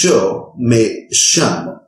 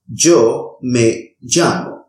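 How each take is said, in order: First: The y and ll are hissing, sh-like sounds. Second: The y and ll are harsh, g-like sounds. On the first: "pronounce it as a sibling sound" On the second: "pronounce this sound as a harsh G sound"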